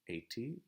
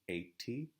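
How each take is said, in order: No difference in how they are said.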